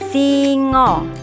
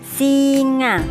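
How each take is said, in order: First: The final vowel sounds like O. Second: The final vowel sounds like A. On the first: This is the Javanese word. "A-nya dibaca O" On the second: This is the Indonesian word. "gambar hewan singa"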